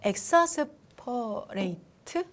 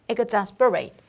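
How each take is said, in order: First: The word begins with an 'ek' sound. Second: The word begins with an 'ig' sound. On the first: The speaker calls it wrong. "엑사스가 아니라" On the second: The speaker calls it right. "발음 기호대로 exasperate"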